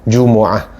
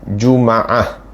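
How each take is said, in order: First: The m is followed by an u vowel. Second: The m is followed by an a vowel. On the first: "mim tu dengan baris depan" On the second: "Boleh juga dengan baris atas"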